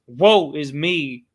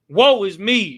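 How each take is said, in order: First: It is said with little force. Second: It is said with more force.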